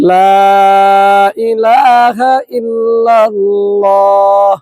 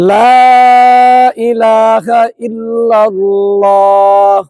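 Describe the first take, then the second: First: The long vowels are held out their full length. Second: The long vowels are held out their full length.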